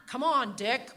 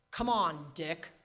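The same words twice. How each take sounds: First: Laughing, louder New England Hepburn drawl; Hepburn-style New England accent, amused and loud; Katharine Hepburn accent. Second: A hint of Hepburn, calling her husband; light New England lilt on Dick; mild New England accent. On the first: Retold or imitated. Grandmother chiding grandfather, loud laughing Hepburn New England accent. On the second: Grandmother nudging her husband, mild New England accent. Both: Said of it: "New England Katharine Hepburn accent".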